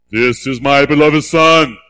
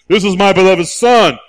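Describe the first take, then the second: First: Lower, slow voice from heaven; a deep-set heavenly announcement; voice of God. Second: Louder, ringing proclamation; belted out as the Father's proclamation; proclaimed louder. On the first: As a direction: intone it as God speaking. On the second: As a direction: announce it boldly to the crowd. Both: Acted. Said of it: "You gotta have it, okay?".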